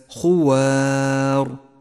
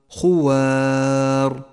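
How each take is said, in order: The two takes are said the same way.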